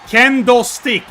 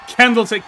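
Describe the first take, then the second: First: Candlestick said emphatically as "KEN-DOH stick", no L; pronounced as kendo. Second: Candlestick said quickly with an L, "candle-stick"; heard as candle. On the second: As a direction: run candlestick together so it sounds like "candle". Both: Shown as a demonstration. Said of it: "No, I'm saying kendo".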